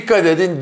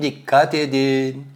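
First: Dikkat quickly stressed, falling end; quick warning with Dikkat stressed. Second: Dikkat drawn out slowly, weight on dikkat; slow warning, lean on Dikkat; stress on dikkat. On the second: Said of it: "Naci Hoca diyor ki". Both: Retold or imitated.

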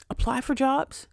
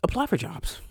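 First: High, odd inner voice; high voice of her own intuition. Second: Intuition whispering. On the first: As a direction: sing it out as her gut talking, pitched high. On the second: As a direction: breathe it like an inner voice. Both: Retold or imitated. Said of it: "My intuition said".

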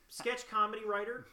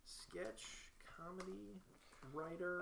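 First: "sketch comedy writer" in one run, pitched up, rising; tentative suggestion. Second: "Sketch... comedy... writer", very soft, word by word; typing aloud. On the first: Answering a form's skills question, tentative suggestion. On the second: Typing skills into a form, soft halting self-dictation. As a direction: murmur "sketch comedy writer" with pauses between words. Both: Real, not acted.

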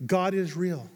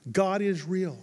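Both takes have the same delivery.

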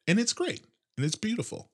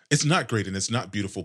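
First: High, soft mock praise; sarcastic. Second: Said in the usual way. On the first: Real, not acted. Host calls his bad day great, soft and sarcastic. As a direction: gush about it without meaning a word.

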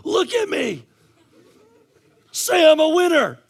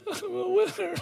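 First: High, loud coach's shout; rallying shout. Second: High, whiny imitation of crying kids; mock whimpering kids. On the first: Retold or imitated. Coach to crying kids in the dugout, rallying shout. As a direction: yell to fire up a losing team. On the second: Losing kids echoing their coach, mock tearful whimper. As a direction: squeak it out tearfully, unconvinced, hammed-up.

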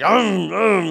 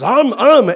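First: Loud mock-mad "um, um"; imitated angry baby grunts. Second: Loud, high "um, um"; imitated baby hungry grunts. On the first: Baby not given food, imitated angry grunts. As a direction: mimic a baby fuming for food. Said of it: "He's mad". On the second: Baby who wants to eat, imitated hungry grunts. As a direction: mimic a baby asking for food. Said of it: "when he wants to eat".

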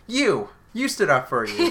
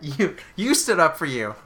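First: High, loud, punchy "You!"; spring the answer like a punchline; emphatic reveal. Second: Mock dramatic reveal. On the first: Retold or imitated. Imitating the doctor's big reveal about who stood up, loud and high. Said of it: "waiting to see if you would say it like that". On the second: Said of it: "say it like that".

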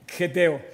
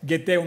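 First: Geteo said with a rough throaty g, like the Spanish j; unsure pronunciation. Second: Geteo said with a hard g, as in gato; retry geteo with a hard g sound; corrected pronunciation. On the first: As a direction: try geteo first as a throaty xeteo. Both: Shown as a demonstration. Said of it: "no sé cómo se pronuncia".

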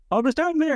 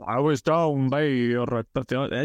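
First: Much higher, squeaky excitable farmer. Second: Slow, deep west of Ireland farmer; original Farmer Michael voice. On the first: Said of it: "more kind of squeaky". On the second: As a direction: drag it out low like the early farmer. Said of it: "it was very deep at the beginning and slow". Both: Shown as a demonstration.

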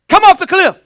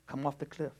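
First: Much higher and louder, an alarmed yell; urgent shout. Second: Soft and casual, no alarm at all; calm, no urgency. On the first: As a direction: shout it like a life depends on it. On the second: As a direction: say it softly, like nothing is wrong. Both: Shown as a demonstration. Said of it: "you're gonna hear the urgency of my voice".

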